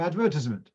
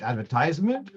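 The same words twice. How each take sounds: First: "advertisement" stressed on the second syllable, ad-VER-tisement; British stress. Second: "advertisement" stressed on the third syllable, adver-TISE-ment; American stress. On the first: Teacher contrasting Americans and England, "advertisement" stressed on VER. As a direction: say "advertisement" the English way, weight on VER, short "tis". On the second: Teacher contrasting Americans and England, "advertisement" stressed on TISE. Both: Shown as a demonstration. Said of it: "the machlokes between Americans and England".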